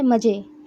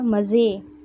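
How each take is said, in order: First: The consonant is said plainly, without friction. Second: The consonant is said with audible friction.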